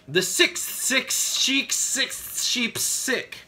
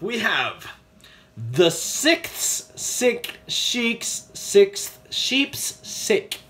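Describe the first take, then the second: First: It is said fast. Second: It is said slowly.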